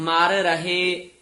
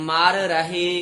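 No difference in how they are said.

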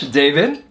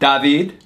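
First: The name is said with an English accent. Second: The name is said with a Spanish accent. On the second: "The Spanish accent, it's"

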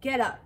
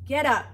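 First: The command is said at normal volume. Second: The command is said louder.

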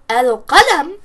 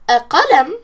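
First: The l is clearly heard before a single q. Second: The l is dropped and the q is single. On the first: The speaker calls it right. "we're not hiding the lam and we're not stressing the qaf" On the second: The speaker calls it wrong. "we're still hiding the lam"

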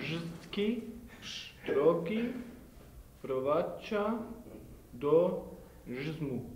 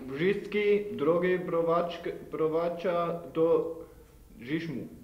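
First: It is read slowly and loudly. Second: It is read at a normal speed.

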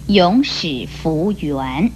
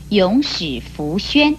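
First: The final syllable is pronounced yuan. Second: The final syllable is pronounced xuan. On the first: The speaker calls it wrong. "不可以念成永始弗圆" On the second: The speaker calls it right. "比方像作为自我发誓永不忘记讲的永始弗宣"

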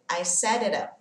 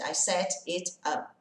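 First: The t sounds are soft d-like sounds, words linked. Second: The t sounds are clear t sounds, words separate. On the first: "O som de T vai virar um som de D, bem levinho" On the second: "ao invés de"

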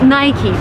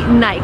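First: The word ends with a vowel sound after the 'k'. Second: The word ends on the 'k' with no vowel after it. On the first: This is how Americans say the brand name. The speaker calls it right. "The correct way to pronounce this brand name is Nike, but that's very American" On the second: This is how people outside America say the brand name. The speaker calls it wrong. "If you travel abroad, people would say Nike"

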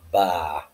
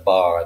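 First: The R at the end is dropped entirely. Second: The R at the end is clearly pronounced.

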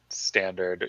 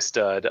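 First: The abbreviation is said as the full word 'standard'. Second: The abbreviation is said as one short syllable, 'stud'. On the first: "I say standard" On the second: "I don't say stud"

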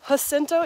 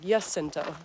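First: The name begins with a J sound. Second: The name begins with a Y sound. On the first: "Some people say Jacinto, ... because it's spelled with a J" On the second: "it's actually pronounced like a Y, like the Germans pronounce a J"

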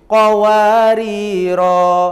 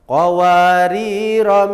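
First: The final vowel after the r is long. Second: The final vowel after the r is short. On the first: The reciter stops at the end of the verse. "jika wakof di akhir ayat lima belas, ronya dibaca panjang" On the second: The reciter starts from the next verse. "awal ayat enam belas, ronya dibaca pendek"

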